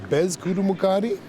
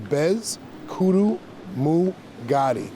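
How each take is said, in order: First: The name is said smoothly in one go. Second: The name is split into separate syllables. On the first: "the correct way to say it is" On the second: "I like breaking it down syllable wise"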